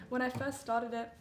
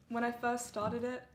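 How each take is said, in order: Both takes have the same delivery.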